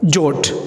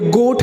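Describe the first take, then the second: First: The word begins with a j sound. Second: The word begins with a hard g sound. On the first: The speaker calls it wrong. "ना कि जोट" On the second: The speaker calls it right. "तो ये गोट है ना कि"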